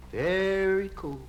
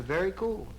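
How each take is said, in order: First: "Very" stretched very long, then "cool"; drawn-out VERY. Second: Said in the usual way. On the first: Shown as a demonstration. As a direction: hold the word "Very" slowly for emphasis. Same words repeated, stretched for effect.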